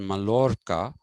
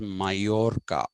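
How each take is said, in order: First: The double L is said as an L sound. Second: The double L is said as a Y sound. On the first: The speaker calls it wrong. "is not pronounced as Mallorca" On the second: The speaker calls it right. "but it is pronounced as Mallorca"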